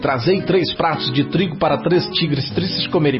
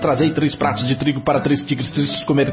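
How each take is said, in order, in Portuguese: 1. A frase é dita em ritmo normal. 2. A frase é dita em ritmo rápido.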